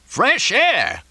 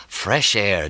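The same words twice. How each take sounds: First: Very high-pitched outraged echo; incredulous yell. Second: Said in the usual way. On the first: A narrator's reading. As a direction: yell it back in disbelief. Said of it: "Mortimer yelled". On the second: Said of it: "he inhaled deeply".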